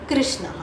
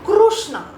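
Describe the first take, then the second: First: The first syllable has a syllabic r sound. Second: The first syllable has an added u vowel. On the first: The speaker calls it right. "this is the correct pronunciation" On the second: The speaker calls it wrong. "some people will chant it as Krushna"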